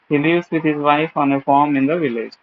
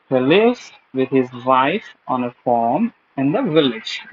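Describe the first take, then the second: First: The stress does not fall on the content words. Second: The stress falls on the content words. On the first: The speaker calls it wrong. "most of the people may read it like" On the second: The speaker calls it right. "give stress on the content word rather than the grammatical word"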